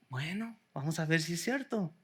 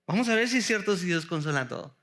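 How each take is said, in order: First: Quiet doubt. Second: Faster and fuller, pressing on "si"; brisk challenge. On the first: Preacher doubting the glib reading, first said quietly. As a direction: murmur "Bueno, vamos a ver si es cierto" as a quiet challenge. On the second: Preacher repeating the challenge to the congregation, faster. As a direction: push "Vamos a ver si es cierto" out quickly and firmly. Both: Shown as a demonstration.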